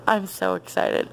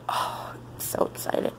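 First: Said in the usual way. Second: Breathless whispered glee; whispered excitement. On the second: Real, not acted. Vlogger hushing her thrill at the TV, whispered.

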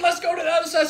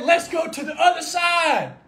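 First: Said in the usual way. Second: Slow, shouted declaration; loud, drawn-out proclamation; proclaimed command. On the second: Acted. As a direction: call it out across the water, slowly. Quoting Jesus, proclaimed.

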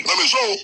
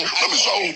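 First: Much higher, rising at the end; raised pitch repeat. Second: Said in the usual way. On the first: Acted. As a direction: lift the repeat up high and let it rise. Same phrase repeated higher.

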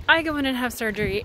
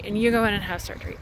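First: "I" leaned on in "I go in and have surgery"; stressed "I" set against "you". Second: "you" leaned on in "you go in and have surgery"; stress on you. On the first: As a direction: contrast "I" against "you", a little fast. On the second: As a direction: answer the "I" line by hitting "you", quickly. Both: Shown as a demonstration.

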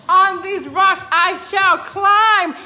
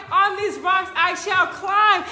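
First: Declaring. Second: Proclaimed. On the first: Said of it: "But if you say". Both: Shown as a demonstration.

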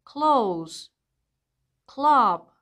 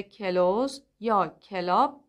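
First: کلوز said as kloz in one go; کلاب said as klab, k and l together; correct cluster. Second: کلوز said as ke-loz; کلاب split as ke-lab with an extra vowel; wrong vowel inserted. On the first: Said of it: "پس تلفظ کلماتی مثل". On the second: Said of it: "اشتباهه". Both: Shown as a demonstration.

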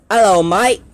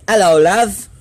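First: Higher, louder Australian greeting with rising end; cheery try at an Australian accent. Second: Higher, louder British greeting with rising end; British accent. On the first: Vlogger showing off accents to viewers, Australian accent. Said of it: "Here's my Australian". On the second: Vlogger showing off accents to viewers, British accent. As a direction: put on a British accent for a hello. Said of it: "Here's my British". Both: Shown as a demonstration.

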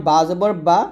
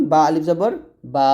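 First: Final বা said short, vowel not stretched. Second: Final বা held long on one vowel; drawn-out madd. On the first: Teacher shows learners a harakat, short unstretched বা. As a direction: cut the vowel of the last বা short. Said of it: "হরকতে তাড়াতাড়ি পড়তে হয়". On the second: Teacher shows learners what madd is, long-held বা. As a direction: stretch the last বা out. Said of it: "টেনে, টেনে পড়াকে মদ বলে". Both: Shown as a demonstration.

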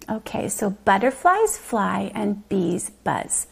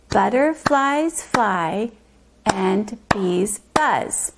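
First: Said in the usual way. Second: Butterflies fly and bees buzz, every syllable slow and separate; syllables clapped. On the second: Shown as a demonstration. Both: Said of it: "Let's clap to the syllables".

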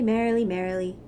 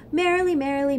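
First: "merrily, merrily" dropped back lower; the answering "merrily, merrily" brought down low; lower take. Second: "Merrily, merrily" set higher and a little louder; the first "merrily, merrily" pitched up; higher take. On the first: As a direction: let the second "merrily" fall. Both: Acted. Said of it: "said the other frog".

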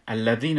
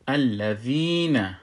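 First: الذین said quickly, ī not held; short vowel. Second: الذین slowly, with a long-held ī; madd pronunciation. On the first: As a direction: say الذین with no stretch on the ī. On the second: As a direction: draw out the ī in الذین. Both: Shown as a demonstration. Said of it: "الذین نمیشه".

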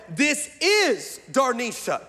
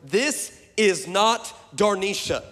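First: Slow, higher, without the not; "This is Darnisha" said slowly and a bit higher, no not; autocorrected version. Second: Slow, with not stressed; "This is not Darnisha" said slowly, leaning on not. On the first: Pastor voices the autocorrected text, slow and higher. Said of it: "the autocorrect on my phone said". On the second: Pastor shows what he meant to text, slow and stressed. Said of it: "I meant to say". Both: Shown as a demonstration.

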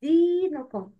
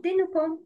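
First: دينكم with "dee" held for two beats; two-beat long vowel. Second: دينكم with a clipped short "di"; wrongly shortened vowel. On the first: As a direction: lengthen the first vowel of دينكم. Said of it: "Make long sound with two beats". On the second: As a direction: cut the first vowel of دينكم short, as the mistake. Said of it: "Not دينكم". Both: Shown as a demonstration.

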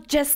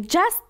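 First: "just" said as "jəst" with a short, neutral vowel; correct just. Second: "Just" with an open "a", like "jast"; the mistaken "Just" with a wide "a" vowel; wrong just. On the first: ("just" را با واکه کوتاه و خنثی بگو، مثل «جِست») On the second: («Just» را با واکه باز «اَ» بگو، مثل «جَست») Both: Shown as a demonstration.

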